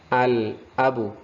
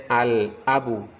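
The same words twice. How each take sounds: The two takes are said the same way.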